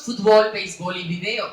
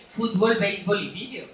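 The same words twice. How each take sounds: First: Said in the usual way. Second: Fútbol, béisbol, video as Spaniards stress them; Spain stress on fútbol. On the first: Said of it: "nosotros decimos". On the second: Shown as a demonstration. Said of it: "ellos dicen".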